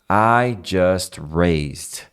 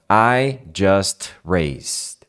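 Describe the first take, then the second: Both takes have the same delivery.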